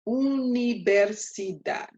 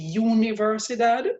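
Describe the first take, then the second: First: The first vowel sounds like a plain 'oo'. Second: The first vowel sounds like English 'you'. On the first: The speaker calls it right. "the U in Spanish is not U. It doesn't have its name. It's U" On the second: The speaker calls it wrong. "the temptation is going to be to say universidad"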